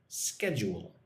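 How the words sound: It begins with a hard sk sound. "America, they say schedule with the k sound"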